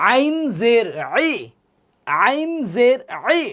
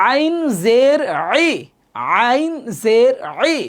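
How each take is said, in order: Both takes have the same delivery.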